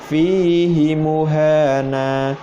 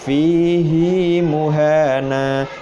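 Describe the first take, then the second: First: The vowel after 'h' in 'fihi' is kept short. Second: The vowel after 'h' in 'fihi' is lengthened. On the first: The speaker calls it wrong. "tidak boleh dibaca" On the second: The speaker calls it right. "hak domirnya itu harus dibaca panjang"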